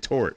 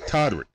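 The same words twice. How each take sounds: First: "Torick" without the D sound; mispronounced name. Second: "Todrick" with the D sounded; corrected name. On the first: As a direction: say "Torick" as two syllables, dropping the middle D. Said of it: "I said [name]". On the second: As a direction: say "Todrick" with a clear DR in the middle. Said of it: "Oh, it's [name]". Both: Shown as a demonstration.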